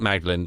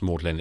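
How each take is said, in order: First: The name is said the way it is written. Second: The name is said unlike the way it is written. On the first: The speaker calls it wrong. "It's spelt Magdalen" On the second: The speaker calls it right. "pronounced Magdalen"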